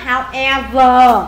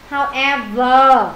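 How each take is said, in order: First: "However" said slowly, stress marked; slow model word. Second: "However" again slowly, stress marked; slow model word. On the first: Teacher slowly models stress for class. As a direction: drag "However" for students. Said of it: "làm ờ, khoan vào". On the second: Teacher repeats the stressed word for class. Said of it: "Khoan vào however". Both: Shown as a demonstration.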